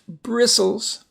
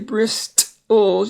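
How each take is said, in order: First: The T sound is silent. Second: The T sound is pronounced. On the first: The speaker calls it right. "it's just bristles" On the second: The speaker calls it wrong. "you don't say bristles"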